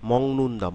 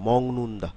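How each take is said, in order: The two takes are said the same way.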